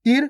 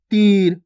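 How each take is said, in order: First: Short i in तिर, quick and unstretched. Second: Long drawn ee in तीर; stretched long ee. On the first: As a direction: say तिर with a brief vowel. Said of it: "और इसको कैसे पढ़ा अपन ने?". (तिर में छोटी इ, बिना खींचे) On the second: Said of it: "बड़ी ई की मात्रा को खींच के पढ़ना है". (तीर में ई खींचकर) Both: Shown as a demonstration.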